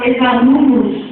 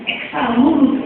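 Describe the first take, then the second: First: Ex-alunos with the x said as z, ezalunos, a little louder; voiced z sound in ex-alunos. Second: Ex-alunos with the x said as ks, ek-salunos; crisp ks sound in Ex-alunos. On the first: Teacher showing the class the z way to say the X: ex-alunos as ezalunos. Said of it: "Ele tem som de Z". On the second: Teacher showing the class one way to say the X: Ex-alunos with a ks sound. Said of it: "porque o X, ele tem várias formas de pronunciar". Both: Shown as a demonstration.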